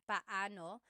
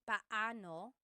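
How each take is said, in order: The two takes are said the same way.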